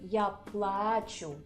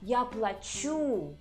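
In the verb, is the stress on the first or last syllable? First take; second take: first; last. First: The verb is stressed on its first syllable. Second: The verb is stressed on its last syllable. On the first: I am crying. "Here we put stress on the first syllable" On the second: I am paying. "And here we put stress on the last syllable"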